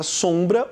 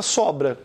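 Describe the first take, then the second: First: SOMBRA with the O through the nose; nasal O. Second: SOBRA with an open, non-nasal O; oral O. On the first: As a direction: nasalise the first vowel of SOMBRA. ("sombra" com O nasal) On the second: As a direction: keep the nose out of SOBRA's O. ("sobra" com O aberto, oral) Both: Shown as a demonstration. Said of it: "Esse M só nasaliza".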